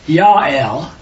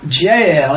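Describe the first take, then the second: First: The name begins with a Y sound. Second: The name begins with a J sound. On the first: The speaker calls it right. "it's really Yael, because it's J replaced with a Y" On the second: The speaker calls it wrong. "Her name is not Jael"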